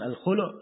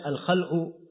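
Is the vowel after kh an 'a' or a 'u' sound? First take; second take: u; a. First: The vowel after kh is u. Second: The vowel after kh is a. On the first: It is a name for the separation. "di dhamma kha'nya" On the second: It means pulling out or removing. "di fatha kha'nya"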